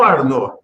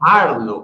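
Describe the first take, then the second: First: The name is said the French way. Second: The name is said the plain German way. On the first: The speaker calls it wrong. "dado uma afrancesada no seu nome" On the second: The speaker calls it right. "ele não é francês"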